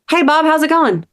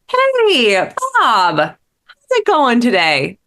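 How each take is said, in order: First: The greeting sounds casual and distracted. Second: The greeting sounds warm and attentive.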